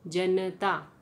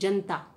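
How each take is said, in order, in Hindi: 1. n के बाद का छोटा स्वर उच्चारित होता है। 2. n के बाद का छोटा स्वर लोप हो जाता है। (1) "उच्चारण क्या होना चाहिए था" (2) "ऐसे ही"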